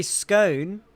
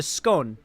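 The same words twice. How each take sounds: First: "scone" with a long O, rhyming with cone; older "scone". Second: "scone" with a short O, rhyming with gone; Britished "scone". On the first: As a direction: draw out the O in "scone", as in bone. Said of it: "they used to say scone". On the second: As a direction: make "scone" more British, rhymed with gone. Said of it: "they've Britished it even more into scone". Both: Shown as a demonstration.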